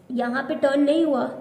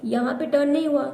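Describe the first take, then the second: No difference in how they are said.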